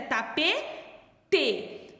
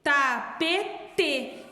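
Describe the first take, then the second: First: The word is said carefully, every syllable clear. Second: The word is said carefully, every syllable clear.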